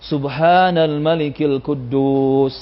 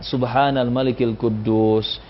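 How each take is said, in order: First: The phrase is said at its loudest. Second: The phrase is said quietly and plainly. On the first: "paling keras" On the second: "biasa saja suaranya pelan"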